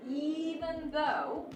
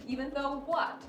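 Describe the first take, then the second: First: Very slow "even though" with a rise on "though"; drawn-out even though. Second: Said in the usual way. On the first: Shown as a demonstration. Teacher reading the worksheet sentence aloud, slow and rising. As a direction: stretch "even though" out slowly and lift it. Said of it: "the tone has to change". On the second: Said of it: "something has to switch".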